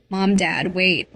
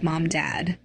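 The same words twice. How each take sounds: First: A small, scared call, not quite whiny. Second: Sobbing. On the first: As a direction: call out timidly after parents. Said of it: "I called, voice small". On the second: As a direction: choke the names out through tears. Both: Acted.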